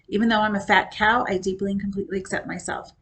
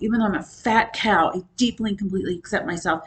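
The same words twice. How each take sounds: First: It is said in a flat, bored tone. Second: It is said with strong, heartfelt emotion. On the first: The speaker calls it wrong. "I said that as if I were bored" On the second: The speaker calls it right. "I could put emotion in it"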